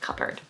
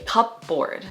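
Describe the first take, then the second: First: The word is blended into one smooth unit. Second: The word is split into cup and board. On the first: The speaker calls it right. "the correct pronunciation" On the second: The speaker calls it wrong. "like kind of separate the word a little bit into cup and board"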